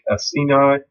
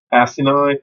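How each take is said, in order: First: "acini" as uh-SEE-nigh; a-SEE-nigh variant. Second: "acini" as ASS-ih-nigh, higher pitched; ASS-i-nigh variant. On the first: Teacher naming pancreatic cell groups, "acini" as uh-SEE-nigh. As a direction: stress the second syllable of "acini", uh-SEE-nigh. Offers two pronunciations of a term. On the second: Teacher offering another pronunciation, "acini" as ASS-ih-nigh. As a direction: stress the first syllable of "acini", ASS-ih-nigh. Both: Shown as a demonstration.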